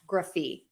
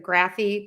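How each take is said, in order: First: The first vowel is weak and unstressed. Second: The first vowel is full, as in graph. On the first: The speaker calls it right. "because we are unstressing that first syllable" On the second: The speaker calls it wrong. "I'm not going to say graphy like the word graph"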